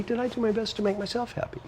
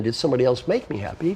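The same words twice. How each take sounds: First: Much higher, softer active question; the better, self-owned question; active version. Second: Said in the usual way. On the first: Shown as a demonstration. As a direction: lift it gently as the right way to ask. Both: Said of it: "Rather than".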